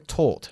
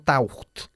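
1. La vocal suena como 'tor' en tortilla. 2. La vocal no suena como 'tor' en tortilla. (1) "se pronuncia taught" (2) "no taught"

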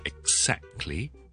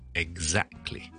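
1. 中间的音是清音 'ks'。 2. 中间的音是浊音 'gz'。

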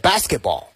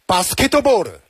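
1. 这是用英语发音说的。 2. 这是用日式发音说的。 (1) "英文呢是" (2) "日式发音呢就是"

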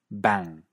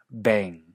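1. Se pronuncia con acento del inglés británico. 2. Se pronuncia con acento del inglés canadiense. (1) "En cierto inglés británico" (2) "en cierto inglés canadiense"

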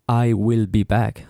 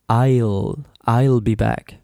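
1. 'I will' se dice como dos palabras completas. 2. 'I will' se contrae en una sola sílaba. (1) "He didn't say" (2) "He said"

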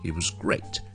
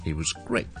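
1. 'was' 读弱音。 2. 'was' 读弱音。

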